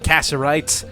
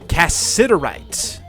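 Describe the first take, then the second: First: The middle 'it' syllable is left out. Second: The middle 'it' syllable is clearly pronounced. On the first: The speaker calls it wrong. "not cassiterite. I somehow missed the I and the T in the middle" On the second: The speaker calls it right. "It's cassiterite"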